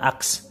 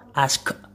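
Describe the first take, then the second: First: The k sound comes before the s sound. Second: The s sound comes before the k sound. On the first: The speaker calls it wrong. "bukan ask" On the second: The speaker calls it right. "s-nya terlebih dahulu"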